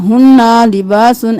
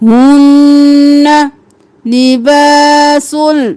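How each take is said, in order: First: The final n sound is pronounced clearly. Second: The n merges into the l without nasalization. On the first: The speaker calls it wrong. "ऐसे नहीं करना" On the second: The speaker calls it right. "इदगाम बिला गुन्ना"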